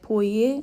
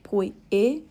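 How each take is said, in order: First: The two words glide together without a break. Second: There is a break between the two words. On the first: The speaker calls it right. "We say poie" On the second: The speaker calls it wrong. "instead of poi e"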